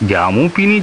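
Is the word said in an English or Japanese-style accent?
Japanese-style. Clusters are broken up with extra vowels.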